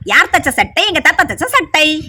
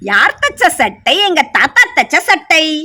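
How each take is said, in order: First: It is said quickly, at a fast pace. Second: It is said at a normal, unhurried pace.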